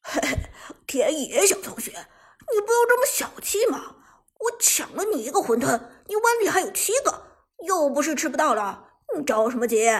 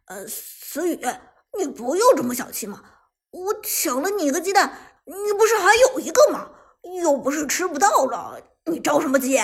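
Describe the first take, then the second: First: Cheeky, high singsong mockery; chuckle, then throw the words back teasingly; gloating mimicry, loud and swinging high; chuckling taunt. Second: Loud, defensive wheedling; hesitate, then argue back loudly and higher; frowning protest. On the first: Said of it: "马海龙嘿嘿一笑". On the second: Acted. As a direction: brazen self-excuse with a rising voice. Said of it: "皱眉说道".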